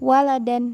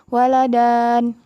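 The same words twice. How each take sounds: First: The final vowel is short. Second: The final vowel is drawn out long. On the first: The speaker calls it right. "tapi bacaannya waladan" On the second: The speaker calls it wrong. "Bukan Ustazah bacanya waladan"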